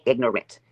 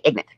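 First: "ignorant" in three clear syllables, ig-nor-ant; full standard pronunciation. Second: "ignorant" shortened to two syllables, ig-nant; bayou pronunciation. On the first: Shown as a demonstration. Showing what they can't say, "ignorant" fully enunciated. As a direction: sound out the middle "or" in "ignorant". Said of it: "they can't say ignorant". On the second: Retold or imitated. Imitating the rival's bayou talk, "ignorant" as ig-nant. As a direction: swallow the middle of "ignorant": IG-nent. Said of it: "They say ignorant".

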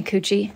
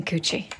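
First: Said in the usual way. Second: Coochie whispered, softer and unvoiced. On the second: Real, not acted. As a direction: hiss the name Coochie under your breath. Calls the pet a second time.

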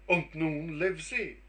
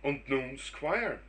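First: Louder, quicker echo of the doctor's question; eager echo. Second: Said in the usual way. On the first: Acted. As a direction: fire the same question straight back, keen. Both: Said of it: "sprach der Squire im gleichen Atemzug".

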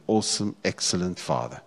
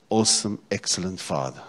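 The two takes are said the same way.

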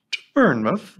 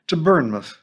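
First: "Bournemouth?" lifted in a rising question tune; questioning rise. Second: "Bournemouth" falling to a firm close; plain statement. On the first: Narrator echoing Missus Bonney's news, "Bournemouth?" rising. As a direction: echo "Bournemouth?" back in disbelief, rising. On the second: Missus Bonney telling the teacher where, "Bournemouth" falling. Stating destination flatly. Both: A narrator's reading.

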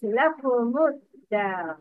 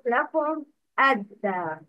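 First: لكم الدار run together as lakumud-dar; joined pronunciation. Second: لكم الدار with a closed lakum, then ad-dar; unlinked mispronunciation. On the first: Teacher models the rule for students, لكم الدار joined as lakumud-dar. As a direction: link لكم into الدار, no alif heard. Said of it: "Alif wasl isn't pronounced". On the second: Teacher shows students the mistake, لكم cut off from الدار as lakum, ad-dar. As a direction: stop لكم on the m before الدار. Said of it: "not لكم الدار". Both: Shown as a demonstration.

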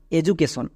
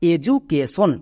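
First: Said in the usual way. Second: education split into four measured syllables; teacher's broken-up example word. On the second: Shown as a demonstration. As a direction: spell out the beats of education, syllable after syllable. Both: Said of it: "যেমন একটা example দেখো".

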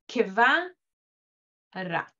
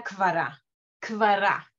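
First: "kvara" said as ke-va-ra, with a short e after k; slow biblical "kvara" with a sounded shva; biblical kevara. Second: "kvara" with a silent shva, k straight into v; no vowel after the k in "kvara"; modern Hebrew kvara. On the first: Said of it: "En el hebreo bíblico todavía se pronuncia". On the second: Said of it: "en el hebreo moderno, ni siquiera se la pronuncia". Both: Shown as a demonstration.

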